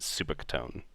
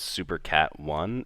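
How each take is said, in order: First: The name ends rhyming with tone. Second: The name ends with the word one. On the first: "in my head, I've always pronounced it Super Catone" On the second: "I didn't didn't realize that it was Super Cat one"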